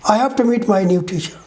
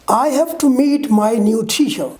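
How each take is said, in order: First: The words are reduced and run together. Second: Every word is said fully and separately.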